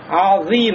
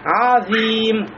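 First: The opening ayn sound is heavy and dark. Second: The opening ayn sound is thin and light. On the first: The speaker calls it wrong. "Нельзя сказать азим" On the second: The speaker calls it right. "а у нас будет мураккака тонким"

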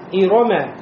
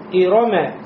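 First: All vowels are short and quick. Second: The same.

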